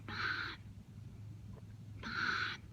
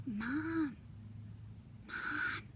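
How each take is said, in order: First: Soft unvoiced whisper. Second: Soft breathy whisper. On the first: Daughter Hannah waking her mom at night, whispering. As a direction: whisper gently so only mom wakes. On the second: Daughter Hannah sick at night waking mom, whispering. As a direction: whisper it gently again. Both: Shown as a demonstration. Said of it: "Hannah whispered".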